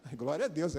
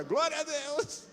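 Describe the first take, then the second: First: Said in the usual way. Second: High, stretched-out mock praise; mock rejoicing. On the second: Preacher reacting to being the one up front, mock rejoicing. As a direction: push the praise up high with forced enthusiasm. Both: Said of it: "Aí fala de novo agora".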